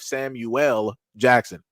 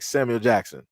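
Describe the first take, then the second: First: The name is said in separate, distinct parts. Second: The name is run together as one word. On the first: "instead of Samuel Jackson" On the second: "You say everything all together like Samuel Jackson"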